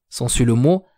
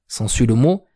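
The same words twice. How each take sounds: Both takes have the same delivery.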